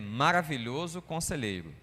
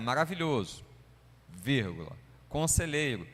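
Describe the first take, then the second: First: The two words run together without a break. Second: There is a break between the two words. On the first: It is one compound name. The speaker calls it right. "ele é Maravilhoso Conselheiro" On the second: They are two separate names. The speaker calls it wrong. "eu mesmo costumava ler assim, não"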